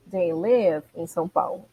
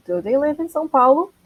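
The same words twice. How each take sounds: First: "They live in São Paulo." said lower and softer; statement. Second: "Do they live in São Paulo?" higher with a rising end; question. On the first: (afirmação em tom mais baixo) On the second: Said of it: "Vai fazer disso uma pergunta". (pergunta com tom subindo) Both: Shown as a demonstration.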